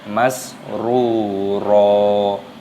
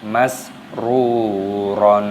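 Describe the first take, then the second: First: The word ends on a long vowel without n. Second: The word ends with an n sound. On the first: The speaker calls it right. "dibaca masruro" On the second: The speaker calls it wrong. "bukan dibaca masruron"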